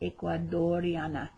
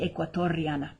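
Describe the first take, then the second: First: The middle consonant is a d sound. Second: The middle consonant is a t sound. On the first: The speaker calls it wrong. "I made a little mistake in the last video when I said ecuadoriana" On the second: The speaker calls it right. "It should be ecuatoriana"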